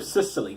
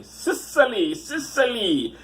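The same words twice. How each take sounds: First: Said in the usual way. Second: High, hammed-up mock Italian accent; cartoonish Italian-ish accent; unplaceable accent. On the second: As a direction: sing out Sicily in fake Italian accent. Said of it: "I don't know what that accent is".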